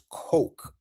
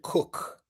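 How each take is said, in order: First: The name sounds like the word coke. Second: The name sounds like the word cook. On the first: This is how the billionaire family says their name. "they pronounce theirs Koch" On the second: This is how the astronaut says her name. "she pronounces it Cook"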